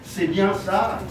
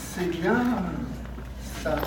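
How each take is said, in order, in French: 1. La phrase est dite simplement, sans étirement. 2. Le mot 'bien' est accentué et allongé. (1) "je l'ai mal prononcé" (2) "Avec cet accent, monsieur, bien. Avec cet étirement"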